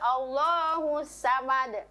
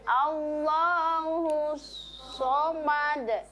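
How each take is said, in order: First: The s is light, with the tongue back lowered. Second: The s is heavy, with the tongue back raised. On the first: The speaker calls it wrong. "tidak boleh Allahu samad" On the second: The speaker calls it right.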